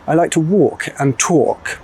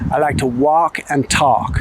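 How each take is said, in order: First: It is said with a British accent. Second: It is said with an American accent.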